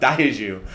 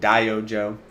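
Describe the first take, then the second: First: The J is said with a French-style sound. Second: The J is said without a French-style sound. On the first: The speaker calls it wrong. "It's like dipping sauce" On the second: The speaker calls it right. "D O J is Diojo"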